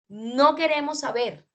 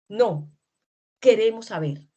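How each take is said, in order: First: It runs on with no pause after no. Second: There is a pause right after no. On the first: They do not want to know. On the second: They do want to know.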